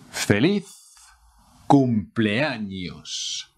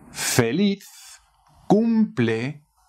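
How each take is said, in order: First: "cumpleaños" drawn out slowly; slow model. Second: Said in the usual way. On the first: Shown as a demonstration. Teacher modelling the greeting slowly. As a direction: stretch "cumpleaños" for learners. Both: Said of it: "How to say happy birthday".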